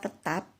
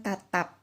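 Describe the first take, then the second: First: "tetap" with a schwa in the first syllable; clear pronunciation. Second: "tatap" with an open a in both syllables; contrasting pronunciation. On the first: Teacher contrasting easily confused words, "tetap" clearly pronounced with a schwa. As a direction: articulate "tetap" with a short e, not as "tatap". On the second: Teacher contrasting easily confused words, "tatap" pronounced with open a sounds. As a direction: articulate "tatap" with a clear first a, not as "tetap". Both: Shown as a demonstration. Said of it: "tidak tertukar dengan tatap".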